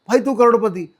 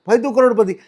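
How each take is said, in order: The two takes are said the same way.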